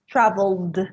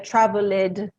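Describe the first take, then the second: First: The ending is said without an extra vowel sound. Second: The ending is said with an extra vowel sound. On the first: The speaker calls it right. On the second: The speaker calls it wrong.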